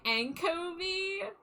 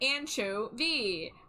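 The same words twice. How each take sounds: First: The middle consonant is a 'k' sound. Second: The middle consonant is a 'ch' sound. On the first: The speaker calls it wrong. "I was pronouncing it anchovy, like like like echo, like anko" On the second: The speaker calls it right. "it's supposed to be like anchovy"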